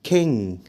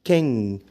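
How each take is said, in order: Both takes have the same delivery.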